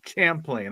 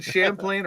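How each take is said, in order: First: "Champlain" opening on a hard ch; "Champlain" with ch in place of sh. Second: "Champlain" with sh in place of ch. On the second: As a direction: say "Champlain" starting like "sham". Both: Shown as a demonstration. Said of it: "Is it Champlain or Champlain?".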